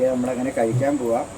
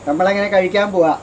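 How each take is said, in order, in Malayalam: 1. ഈ വാക്യം പതുക്കെയാണ് പറഞ്ഞിരിക്കുന്നത്. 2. ഈ വാക്യം ഉറക്കെയാണ് പറഞ്ഞിരിക്കുന്നത്.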